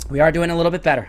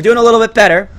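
First: "are" stressed in a settled voice. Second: High, loud encouragement; upbeat exclamation. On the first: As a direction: calmly affirm it, leaning on "are". Repeated calmly with stress on are. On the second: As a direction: announce progress on a raised pitch. First take, brighter exclamation. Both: Real, not acted.

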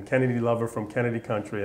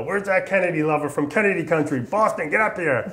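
First: Said in the usual way. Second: Mock drill sergeant calling out across the company, much higher and louder; bellowing sergeant. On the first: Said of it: "that's what he started calling me". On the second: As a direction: summon the recruit like a rough Southern sergeant. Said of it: "is real Southern, real hardcore, gravelly voice, loud".

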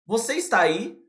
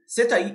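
First: "você está aí" with each word whole; full careful form. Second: "você tá aí" shortened to "cê taí"; everything joined. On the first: Teacher contrasting forms, "você está aí" in full. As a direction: pronounce "você está" completely. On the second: Teacher contrasting forms, "cê taí" run together. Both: Shown as a demonstration. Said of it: "Eu junto tudo".

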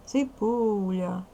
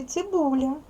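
First: Slow "Цибуля" with a long stressed "у". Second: Said in the usual way. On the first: Shown as a demonstration. Teacher showing pupils the stressed vowel, drawn-out "Цибуля". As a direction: stretch the "у" in "Цибуля" to show the stress. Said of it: "Наголошений у". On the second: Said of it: "Другий звук у слові".

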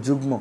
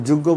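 First: যুগ্ম said as "jug-mo"; ম pronounced. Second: যুগ্ম said as "juggo", with double g and no m; ম dropped. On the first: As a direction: sound both g and m in যুগ্ম. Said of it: "এটারে কি বলো". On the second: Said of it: "এটা তো যুগ্ম বলো না". (যুগ্ম-কে "যুগ্গ" উচ্চারণ) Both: Shown as a demonstration.

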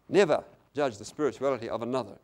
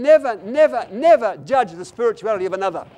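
First: Said in the usual way. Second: High, loud, hammered "never"; emphatic repetition. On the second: Real, not acted. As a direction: pound each "never" at the congregation. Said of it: "and I repeat again".

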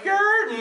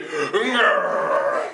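First: Short, high, weak grr; half-hearted growl. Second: Long, committed flexing growl; full-on growl. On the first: Leader mimics players holding back, half-hearted high growl. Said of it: "don't wanna get full on it". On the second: Leader shows how it's gotta be, full-on growl. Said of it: "It's gotta be". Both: Shown as a demonstration.

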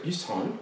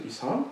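First: Said in the usual way. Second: Put-on "Isan" with a light French accent, nasal final vowel, rising. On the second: Canadian doctor calling Isan, in a French accent. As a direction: say "Isan" the French way, ending on a rise. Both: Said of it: "uh, with a French accent".

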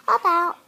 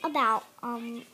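First: Blurted out loud and higher; sudden loud blurt. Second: Said in the usual way. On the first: Real, not acted. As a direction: shout the word to push past the stall. Repeats the word, suddenly loud.

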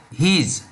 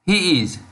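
First: "his" as one long syllable; "his" with long ee and z ending; contracted "he is". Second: Said in the usual way. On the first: Shown as a demonstration. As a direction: merge he and is into "his". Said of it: "we say his". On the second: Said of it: "in speaking English".

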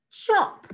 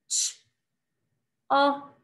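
First: Said in the usual way. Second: "Ch-, op," in separate sounds; sound talk. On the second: Shown as a demonstration. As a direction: say "Ch-, op," with a long gap after the ch. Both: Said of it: "sound talk the words".

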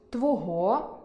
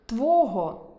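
First: Твого stressed on the last syllable, твогО; standard stress твого. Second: Твого stressed on the first syllable, твОго; dialect stress твого. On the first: Teacher shows the literary stress, твогО. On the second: Teacher shows the dialect stress, твОго. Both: Shown as a demonstration. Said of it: "замість".

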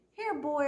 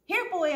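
First: High, coaxing call; calling a dog. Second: High, loud coaxing call; louder call to a dog. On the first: Opal calls the stray dog to her, coaxing call. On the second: Opal calls the dog a second time, louder call. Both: Acted.

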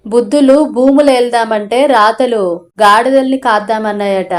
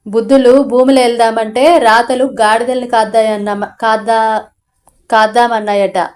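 First: Said in the usual way. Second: Tripping over the proverb, halting and restarting; father stumbles through the proverb, halting and restarting; stumbling read. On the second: A narrator's reading. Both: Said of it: "repeats the proverb cleanly".

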